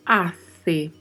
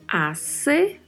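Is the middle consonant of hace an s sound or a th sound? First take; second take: th; s. First: The middle consonant is a th sound. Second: The middle consonant is an s sound. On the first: "com o som de C, gerado com a língua entre os dentes" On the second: "com o som de S"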